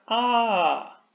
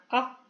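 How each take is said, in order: First: The vowel is held long. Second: The vowel is cut short. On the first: "Si es la versión larga de la vocal" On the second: "si es la duración corta"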